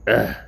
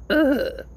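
First: A quick, understated ugh of disgust; just a small disgusted grunt; mild disgusted ugh. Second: Ugh squeezed out much higher in mock disgust. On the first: Retold or imitated. The old lady reacting to the smoker, mild disgusted grunt. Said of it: "And she's like". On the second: Shown as a demonstration. Showing how the old lady groaned at him, high mock-disgusted Ugh. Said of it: "kinda disgusted".

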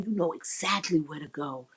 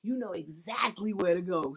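First: Soft, sultry moan of approval; mock bedroom moan; moaning praise. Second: Softer, matter-of-fact instruction; quiet coaching; calm directing. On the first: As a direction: purr it like you're lost in it. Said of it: "if they're doing something I do like". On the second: Shown as a demonstration. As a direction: steer your partner plainly. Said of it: "learn how to just direct them".

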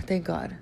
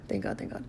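First: Said in the usual way. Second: Soft unvoiced "Thank God, thank God"; whispered relief. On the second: Real, not acted.

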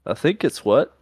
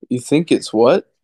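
First: "I think it's what?" ending on a falling tune; "I think it's what?" said flat, falling at the end; tune test. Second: "You think it's what?" rising on what; "You think it's what?" with a rising question tune. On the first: Friends arguing over question tune, "I think it's what?" falling. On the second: Friend mimics it back, "You think it's what?" rising. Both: Shown as a demonstration. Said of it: "Am I saying that like a question?".

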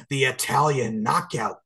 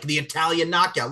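First: Slow announcer drawl on "the Italian knockout"; announcer emphasis. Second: Higher, louder punch on "knockout"; ring announcer emphasis. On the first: Ring announcer introducing Angelica Cole, slow and emphatic. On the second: Ring announcer introducing Angelica Cole, higher and louder. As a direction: sell "the Italian knockout" to the crowd. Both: Shown as a demonstration. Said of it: "I'm gonna emphasize Angelica".

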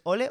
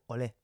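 First: "ole" stressed on the O; stress on first syllable. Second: "olé" stressed on the final é; stress on last syllable. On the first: Settling a syllable debate, "ole" with stress on the O. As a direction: say "ole" as Ó-le, weight up front. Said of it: "ole con acento en la O". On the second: Settling a syllable debate, "olé" with stress on the é. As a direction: say "olé" as o-LÉ, weight at the end. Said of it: "depende si es ole o olé". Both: Shown as a demonstration.

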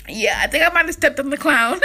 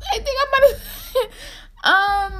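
First: Said in the usual way. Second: Breaking into laughter, slow and much higher; laughing. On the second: Real, not acted. Admitting to viewers she may have stepped on the clown, laughing. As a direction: giggle through the admission.

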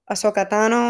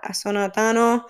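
First: Said in the usual way. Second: Ahsoka said as "Asona", with n for k; mispronounced name. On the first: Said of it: "I'm sorry". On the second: Real, not acted. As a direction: slip on Ahsoka, saying "ah-SO-na". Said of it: "what do I say that?".

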